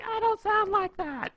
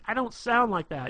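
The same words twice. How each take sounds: First: Shrill falsetto mimicry, loud and drawn out; mock her in a very high squeal; slow, exaggerated high-pitched parroting; bad girl impression. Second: Raised, louder mock-indignant girl; higher, louder acted objection; girlfriend's protest. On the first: Shown as a demonstration. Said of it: "it's a bad impression". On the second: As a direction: protest as the offended girlfriend, pitched up. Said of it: "and she'll be like".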